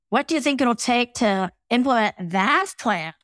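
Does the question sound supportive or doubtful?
doubtful. It sounds doubtful, with stress on "that."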